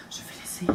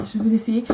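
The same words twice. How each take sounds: First: Hushed, voiceless whisper; whispered aside. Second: Said in the usual way. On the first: Acted. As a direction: whisper it like a secret thought. Quoting own thought, then repeats it. (chuchoté, comme en aparté)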